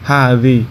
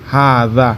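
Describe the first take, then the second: First: The word ends with an 'ee' vowel. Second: The word ends with an 'a' vowel. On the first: This is the regional dialect form. "আঞ্চলিক ভাষা হচ্ছে হাদি" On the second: This is the standard form. "শুদ্ধ হচ্ছে হাদা"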